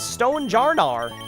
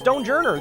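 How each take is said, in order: First: The ending sounds like 'jarnar'. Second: The ending sounds like 'journer'. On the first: The speaker calls it right. "The official pronunciation is Stonejarnar" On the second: The speaker calls it wrong. "is not pronounced Stonejourner"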